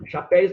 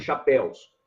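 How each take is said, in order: First: "Chapéus" said as "chapéis", ending in -éis; wrong plural ending. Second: "Chapéus" with an open é gliding into u, then s; correct -éus ending. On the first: Teacher warning students off a wrong plural, "Chapéus" pronounced "chapéis". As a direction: swap the -éus of "Chapéus" for an -éis sound. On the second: Teacher correcting the class, "Chapéus" with a clear -éus ending. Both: Shown as a demonstration. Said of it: "Chapéus não, viu, gente?".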